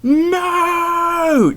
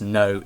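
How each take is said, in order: First: High, loud, drawn-out scream. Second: Said in the usual way. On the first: Acted. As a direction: wail it like a movie character in despair. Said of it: "and I screamed". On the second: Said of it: "just screams".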